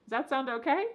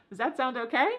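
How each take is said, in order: The two takes are said the same way.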